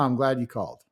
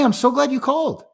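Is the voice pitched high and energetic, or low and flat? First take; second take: low; high. First: The voice is low-pitched and flat. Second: The voice is high-pitched and energetic. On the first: The speaker seems unenthusiastic about the call. The speaker calls it wrong. "rather than" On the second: The speaker is genuinely happy to hear from them. The speaker calls it right. "that high tonality"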